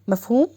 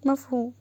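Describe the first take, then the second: First: "مفهوم" as a rising question; "مفهوم" checked firmly, ending upward. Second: "مفهوم" softly, as an answer; "مفهوم" small and accepting, no questioning lift; meek agreement. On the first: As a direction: lift the end of "مفهوم" to demand agreement. Husband checks that wife understood. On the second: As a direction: say "مفهوم" quietly in obedient assent. Wife meekly agrees. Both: A narrator's reading.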